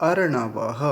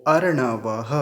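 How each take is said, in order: No difference in how they are said.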